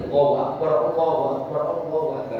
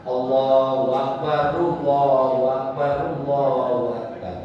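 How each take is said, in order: First: Quick Allahu Akbar, the r of Akbar cut dead; clipped incorrect takbir; wrong takbir with r stopped. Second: Sung Allahu Akbar, the r flowing into Allahu; proper flowing takbir; correct takbir. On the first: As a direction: stop hard on Akbar's r. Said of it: "Kan disukun tadi". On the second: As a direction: let the r of Akbar glide on. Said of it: "mestinya gimana?". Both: Shown as a demonstration.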